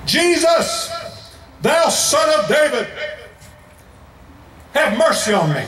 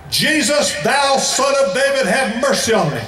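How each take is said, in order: First: Desperate beggar shouting to Jesus over the crowd; shouted plea. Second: Loud high cry for mercy; shouted plea again. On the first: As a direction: yell it at the top of your lungs. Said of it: "Bartimaeus yelled at the top of his lungs". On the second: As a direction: call out over the crowd's scolding. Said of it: "the louder he shouted". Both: A narrator's reading.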